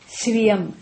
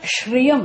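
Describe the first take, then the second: First: The word begins with a plain 's' sound. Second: The word begins with an 'sh' sound. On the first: The speaker calls it right. "There's no H actually" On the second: The speaker calls it wrong. "not Shriyam"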